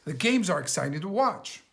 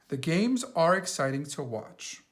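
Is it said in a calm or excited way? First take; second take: excited; calm. First: It is said with strong, excited feeling. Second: It is said in a calm, plain way.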